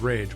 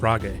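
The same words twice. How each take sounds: First: The name is said like the English word. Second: The name is said with Japanese sounds. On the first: "The decor says Rage" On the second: "the Japanese pronunciation is Rage"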